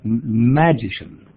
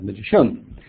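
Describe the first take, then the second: First: The stress is on the first syllable. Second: The stress is on the third syllable. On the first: "put it on the first syllable" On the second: "or the third"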